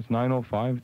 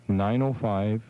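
First: The number is said at normal speed. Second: The number is said slowly.

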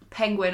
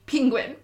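First: The first syllable sounds like 'pen'. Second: The first syllable sounds like 'ping'. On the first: "Not penguin, as in it's spelled P-E" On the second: "I say penguin, as in P-I-N-G"

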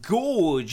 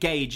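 First: The vowel sounds like 'or', as in gorge. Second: The vowel sounds like 'ay', as in page. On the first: The speaker calls it wrong. "Gorge is not the correct pronunciation" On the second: The speaker calls it right. "Gage is instead the correct pronunciation"

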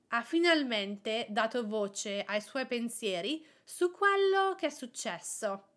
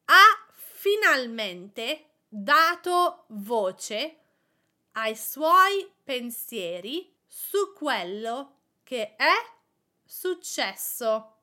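First: It is said at normal speed. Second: It is said slowly.

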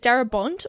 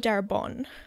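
First: The name ends with an audible T sound. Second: The name ends without any T sound.

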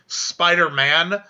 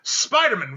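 First: It is said as the usual hero name. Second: It is said like a family surname. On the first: "instead of saying Spider-Man"

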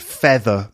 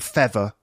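First: The middle sound is a th. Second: The middle sound is a v. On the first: "th in the middle of a word" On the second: "might become v"

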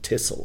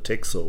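First: The word is said with a Dutch pronunciation. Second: The word is said with an English pronunciation.

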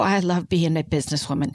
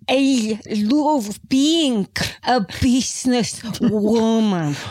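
First: It is said in a plain accent. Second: It is said in a fake Spanish accent.

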